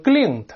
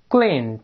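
First: "glint" said with a back ng, like "gling"; mispronounced glint. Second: "glint" with a clear front n, tongue up on the palate; front nasal n. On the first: Teacher warns students of a mistake, "glint" mispronounced as "gling". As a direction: let "glint" end in the ng of 令. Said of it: "不要读成glint，". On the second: Teacher models the word for students, "glint" with a front n. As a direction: say "glint" with n, never ng. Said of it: "紧跟是前鼻音". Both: Shown as a demonstration.

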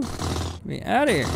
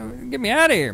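First: Said in the usual way. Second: High, loud cry to be let out; trapped and yelling to get out; panicked shout. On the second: Real, not acted. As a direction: yell it like you're trapped. Character stuck, panicking.

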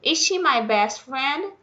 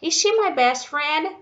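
First: Slow question with \"she\" stressed and a rise at the end. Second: Slow question with \"my\" stressed and a rise at the end. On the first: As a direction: lean on \"she\", then lift the tune. (pergunta lenta, ênfase em \"she\") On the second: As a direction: lean on \"my\", then lift the tune. (pergunta lenta, ênfase em \"my\") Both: Shown as a demonstration. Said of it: "virou perguntinha".

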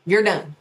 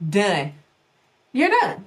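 First: Said in the usual way. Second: Emphatic. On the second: Shown as a demonstration.

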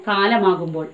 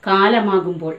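Both takes have the same delivery.

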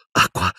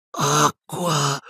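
First: Said in the usual way. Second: High, strained croaking plea; weak croak. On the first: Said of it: "ripeté Harry". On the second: A narrator's reading. Dying professor asking for a drink, croaking. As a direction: croak it out in agony. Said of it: "gracchiò Silente".

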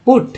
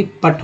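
First: पुट with rounded 'oo', like 'put'. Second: पट with short 'uh', like 'putt'; wrong 'uh' vowel. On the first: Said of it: "यू का उच्चारण ऊ के रूप में". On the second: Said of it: "ना कि पट हुआ". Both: Shown as a demonstration.

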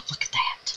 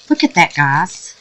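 First: Breathless whisper of awe; barely voiced, stunned by the sparkle; awed whisper. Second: Said in the usual way. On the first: Real, not acted. To viewers, watching glitter puff out, a hushed awed whisper.

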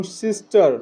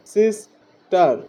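First: Said in the usual way. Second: "সিস্টার" slowly as sis, pause, tar; teacher splitting "সিস্টার" after sis; two-syllable split. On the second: Shown as a demonstration. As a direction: break "সিস্টার" into two separate beats. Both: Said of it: "দ্বিসিলেবিক অডের আরও কিছু example".

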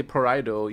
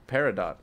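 First: Paraido said as pa-RYE-doh; Paraido pronunciation. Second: Peridot said as PAIR-ih-dot; Peridot pronunciation. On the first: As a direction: say Paraido with a long I, stress on the second syllable. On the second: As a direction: say Peridot with stress on the first syllable. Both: Shown as a demonstration. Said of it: "I say Paraido, you say Peridot".

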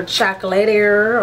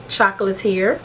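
First: Chocolatier ending in a "lay-tair" sound; Chocolatier with a French-like "-ay-tair" ending; alternative pronunciation. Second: Chocolatier ending in a "teer" sound; Chocolatier with a "-teer" ending, like musketeer; alternative pronunciation. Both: Shown as a demonstration. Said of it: "I don't know how you pronounce it".

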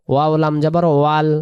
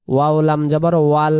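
The two takes are said the same way.

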